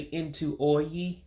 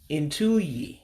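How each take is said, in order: First: Both words are said fully, keeping the O. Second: The words run together, dropping the O. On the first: The speaker calls it wrong. "You don't say into oyi like it looks" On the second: The speaker calls it right. "you're going to get rid of the O"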